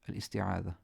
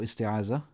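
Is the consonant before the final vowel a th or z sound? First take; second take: th; z. First: The consonant is a soft voiced th sound. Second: The consonant is a buzzing z sound. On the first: The speaker calls it right. "It's a dhal" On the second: The speaker calls it wrong. "you don't say ta'awuz or isti'aza. That's wrong"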